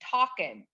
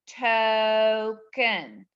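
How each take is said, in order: First: The first vowel is short, closed by the k. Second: The first vowel is long, like its name. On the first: The speaker calls it wrong. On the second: The speaker calls it right.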